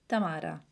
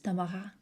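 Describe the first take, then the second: First: The name has an Italian pronunciation. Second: The name has a French pronunciation. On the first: "in Italy it's Tamara" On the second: "In France it's Tamara"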